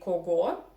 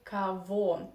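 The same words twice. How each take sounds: First: The middle consonant is a hard g sound. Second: The middle consonant is a v sound. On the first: The speaker calls it wrong. "you do not say кого, as many foreigners do" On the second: The speaker calls it right. "first O you pronounce like A, and G between two O ... we pronounce like V"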